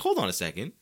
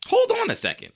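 First: Said in the usual way. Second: High, loud double take; loud, high-pitched dawning disbelief; sudden realization. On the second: Retold or imitated. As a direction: stop everything, pitch leaping up. Repeats the thought, far stronger.

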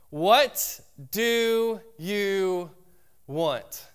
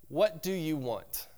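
First: What do you want, drawn out slowly, high and loud on What; slow dramatic question. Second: Said in the usual way. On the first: Shown as a demonstration. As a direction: stretch What do you, then drop on want. Repeating the question for effect.

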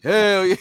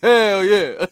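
First: Loud high hammed-up "Hell yeah"; Jax yell. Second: Loud, high, laughing "Hell yeah"; Jax yell. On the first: Friend quoting Jax from the movie, loud and hammed-up. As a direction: belt it like a hyped action hero. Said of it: "he was like". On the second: Retold or imitated. Friend repeating the Jax line, loud through laughter. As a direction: shout it with a grin. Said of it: "He was like".

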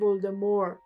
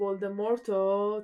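First: ولدمور with the final T left silent. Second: Said in the usual way. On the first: Shown as a demonstration. Showing how the audiobook reader says it, ولدمور without the T. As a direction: say ولدمور French-style, ending on the R.

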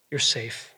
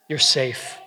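First: "You're safe." repeated much softer and lower; soft tender echo. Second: Steady, even "You're safe."; plain reassurance. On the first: God comforting a doubting listener, softly and tenderly. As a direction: let "You're safe." drop to a hush. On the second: God reassuring a doubting listener, plain and steady. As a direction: say "You're safe." simply and firmly. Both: Acted. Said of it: "the King of the universe saying".

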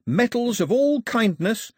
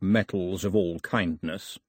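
First: High, strong, drawn-out list item; eager islander. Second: Lower, measured echo of a quaint phrase; amiable king. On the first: Pilou listing gifts for the king, eager. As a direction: pitch it high and keen. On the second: King answering his daughter about the list, amiable. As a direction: savour the phrase in a low kingly voice. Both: A narrator's reading.

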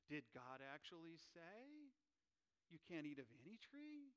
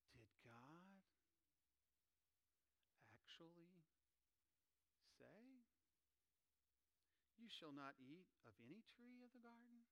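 First: Lightly voiced snake, coaxing; sly serpent. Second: A tempting serpent coaxing quietly; serpent imitation. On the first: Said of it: "my best serpent imitation". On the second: Preacher voicing the serpent to the congregation, sly and hushed. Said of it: "let me do my best serpent imitation".

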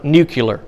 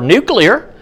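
First: Nuclear mispronounced NOO-kyuh-ler; nuclear said as nucular. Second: Nuclear pronounced NOO-klee-er; careful standard nuclear, NOO-klee-er; NUCLEAR as spelt. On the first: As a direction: swap the middle of nuclear to kyu-ler. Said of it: "there is no word nuclear". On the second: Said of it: "There's a word nuclear". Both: Shown as a demonstration.

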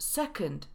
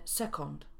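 First: Second with a weak second vowel; schwa in second. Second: Second with clear Polish o and final t; wrong full o. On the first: Teacher modelling for learners, second with schwa. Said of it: "Szła pojawia się". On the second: Teacher showing the mistake, second with full o. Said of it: "a nie". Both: Shown as a demonstration.

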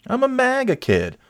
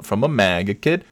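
First: High mocking squeak; mock them in a squeaky voice. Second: Said in the usual way. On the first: Mocking maga kid voice.

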